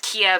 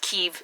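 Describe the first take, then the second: First: The city name is said the older way. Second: The city name is said the current way. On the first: This is how it was said in the past. The speaker calls it wrong. "when I was in college, it was Kiev" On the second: This is how it is said today. The speaker calls it right. "and now it's Kiev"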